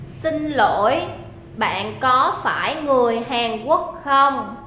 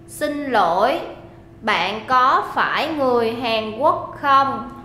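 The two takes are said the same way.

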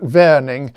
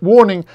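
First: The name is said with a German pronunciation. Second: The name is said with an English pronunciation. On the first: "his name was probably pronounced something like Warning" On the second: "the normal English pronunciation"

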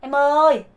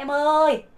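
No difference in how they are said.

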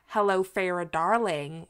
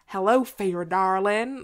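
First: It is said in a general American accent. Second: It is said in a Southern American accent.

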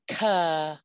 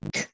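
First: The consonant is followed by an added uh vowel. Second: The consonant is clipped short with no vowel. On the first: The speaker calls it wrong. "you might hear people say" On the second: The speaker calls it right. "We wanna teach students how to cut it short"

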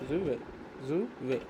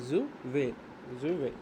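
No difference in how they are said.

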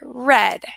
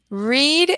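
First: The vowel is short, like in bed. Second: The vowel is long, like in need. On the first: It is the past form of the verb. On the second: It is the present form of the verb.

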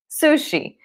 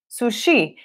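First: The stress is on the first syllable. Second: The stress is on the second syllable. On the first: This is how it is said in English. "Essa primeira sílaba é a sílaba tônica quando a gente fala sushi em inglês" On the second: This is how it is said in Portuguese. "em português vocês falam sushi"

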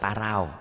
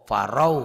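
First: The vowel after the r sounds like 'a'. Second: The vowel after the r sounds like 'o'. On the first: The speaker calls it wrong. "Jangan parau, jangan bunyi a" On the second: The speaker calls it right. "tapi bunyi o"

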